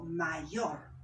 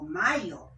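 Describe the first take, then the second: First: Mayor said slowly with stress on final YOR. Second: Mayor with MA hit hard and YOR dropped; loud first syllable MA in mayor; wrong stress. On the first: Teacher showing the correct word, mayor stressed on YOR. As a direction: lean on the last syllable of mayor. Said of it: "digo mayor". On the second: Teacher showing how not to say it, mayor wrongly stressed on MA. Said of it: "Yo no digo mayor". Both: Shown as a demonstration.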